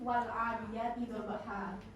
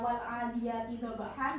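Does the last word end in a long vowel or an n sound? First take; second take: long vowel; n sound. First: The last word ends with a long 'a' vowel. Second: The last word ends with a short 'an' sound. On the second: "yang awalnya"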